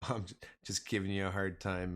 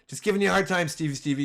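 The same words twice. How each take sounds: First: Said in the usual way. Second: Higher and louder, teasing; playful louder tease. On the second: Real, not acted. Streamer teasing a viewer, louder and playful. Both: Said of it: "you know I love you".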